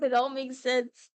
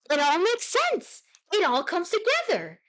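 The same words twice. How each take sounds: First: Said in the usual way. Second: High, exclaimed eureka; excited revelation. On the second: Pretend. Streamer to viewers as it all makes sense, hammed-up excited revelation. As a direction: play it as if everything suddenly clicks. Playful revelation after repeating word.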